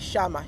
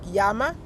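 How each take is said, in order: First: The word begins with an 'sh' sound. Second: The word begins with a 'y' sound. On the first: "they say Shama" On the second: "where like Yama"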